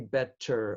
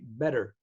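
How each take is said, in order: First: The middle T is a clear, crisp T. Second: The middle T is a soft, D-like flap. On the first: This is not how Americans say it. The speaker calls it wrong. "Americans don't say better" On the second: This is how Americans say it. The speaker calls it right. "Americans say better"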